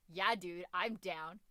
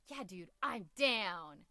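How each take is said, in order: First: Said in the usual way. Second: Slow, louder, drawn-out bro agreement; laid-back bro. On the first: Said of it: "reading the choice first". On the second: Acted. Dad accepting his friend's dinner invite, slow and laid-back. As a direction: stretch it out like a chill bro. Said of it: "performing the chosen reply".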